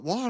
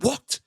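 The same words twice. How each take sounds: First: Said in the usual way. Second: High, incredulous what; mock-gasp the word What? up high; coworkers' stunned high What?; shocked what. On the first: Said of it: "And I was like". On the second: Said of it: "leered at me and went".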